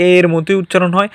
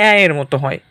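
First: এ said as a close-mid "e"; এ as a pure, narrow "e"; plain E sound. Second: এ said as an open "ae"; open AE sound. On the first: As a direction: say এ like the vowel in "day", without glide. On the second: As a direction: say the first এ like the a in "cat". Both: Shown as a demonstration. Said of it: "দুই রকমের উচ্চারণ হয়".

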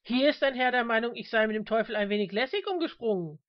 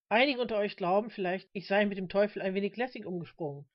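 First: Raised, louder appeal to the crowd; rallying the audience. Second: Sober, even preacher's address; sober lecture style. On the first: Reverend involving the crowd against a heckler, projecting. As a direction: project it to draw everyone in. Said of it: "holte weiter aus, um das Publikum zu beteiligen". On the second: Reverend addressing his flock, sober lecturing tone. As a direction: deliver it matter-of-factly to the congregation. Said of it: "kehrte zu dem nüchternen Vortragsstil zurück". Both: A narrator's reading.

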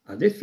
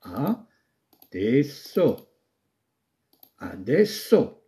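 First: Said in the usual way. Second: Adesso stretched very slowly, each syllable apart; slow dictation. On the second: Shown as a demonstration. Teacher dictates how adesso is written, very slowly. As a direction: dictate adesso at writing speed. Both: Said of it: "وتكتب هكذا".

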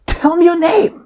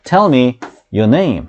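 First: Much higher, emphatic exclamation; with feeling. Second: Said in the usual way. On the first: Shown as a demonstration. Teacher demonstrates an exclamatory command to students, high and emphatic. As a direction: throw real emotion into the command. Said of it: "이렇게 하면 느낌이 들어갔죠?". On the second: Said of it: "평범하게 이렇게 얘기할 수도 있지만".

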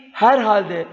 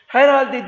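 First: Said in the usual way. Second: "Herhalde" said as a wrong variant; wrong pronunciation. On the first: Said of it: "şekli doğrudur". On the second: Shown as a demonstration. Teacher voices the wrong "Herhalde" for the class. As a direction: give "Herhalde" the mistaken way, a bit higher. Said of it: "Herhalde değil".

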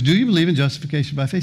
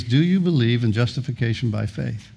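First: Rapid-fire questioning, rising at the end; quick insistent repeat. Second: Deliberate, measured questioning; pointed question. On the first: Angel supervisor pressing the baffled thief, fast and insistent. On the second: Angel supervisor questioning the thief in heaven, pointedly. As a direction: put it pointedly, word by word. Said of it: "he's very pointedly". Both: Retold or imitated.

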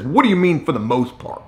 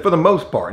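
First: Imitating an irritated supervisor, pitch jumping up then falling away; aggravated. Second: Said in the usual way. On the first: Supervisor questioning the neighbor's answer, aggravated. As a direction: throw it back as a testy challenge. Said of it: "Like he's getting aggravated about this". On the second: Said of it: "I said".

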